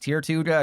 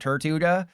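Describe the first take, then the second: First: The first syllable sounds like 'tier'. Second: The first syllable sounds like 'tur'. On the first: The speaker calls it right. "it's actually pronounced tier two-ga" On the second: The speaker calls it wrong. "not Turtuga"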